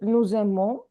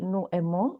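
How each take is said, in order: First: The S of nous links as Z into aimons. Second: The S of nous is silent before aimons. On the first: The speaker calls it right. "after the S, we have vowel" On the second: The speaker calls it wrong. "So we don't say nous aimons"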